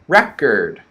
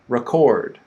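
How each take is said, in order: First: The stress is on the first syllable. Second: The stress is on the second syllable. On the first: It is a noun: something used to play music. "so the first word" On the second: It is a verb: to capture audio or video. "the stress is on the second syllable"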